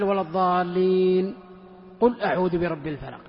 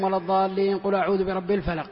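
First: A short pause separates the two phrases. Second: The phrases run together with no pause. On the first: The speaker calls it right. "هذه السكتة" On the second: The speaker calls it wrong. "ما يقول"

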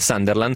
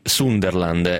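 First: The first vowel sounds like 'a', with a plain s. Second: The first vowel sounds like 'u', with a z-like s. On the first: This is how everyone else says it. The speaker calls it wrong. "io invece dico come tutti, come viene male" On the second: This is the other person's way of saying it. The speaker calls it right. "tu pronunci Sunderland"

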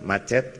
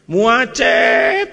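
First: The first vowel is short and plain. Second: The first vowel is drawn out long. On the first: The speaker calls it right. "Tinggal macet, kan sama aja" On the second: The speaker calls it wrong. "e-nya panjang, sama itu, tidak sabar"

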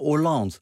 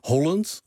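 First: The stress is on the last syllable. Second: The stress is on the first syllable. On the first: "Altijd laatste lettergreep" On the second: "klemtoon voorlaatste lettergreep"

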